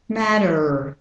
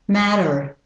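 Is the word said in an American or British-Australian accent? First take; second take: American; American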